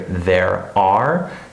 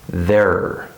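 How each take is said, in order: First: Both words are said fully and separately. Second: The words blend into one short syllable. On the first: The speaker calls it wrong. "that's not how we say this" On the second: The speaker calls it right. "It's just like this"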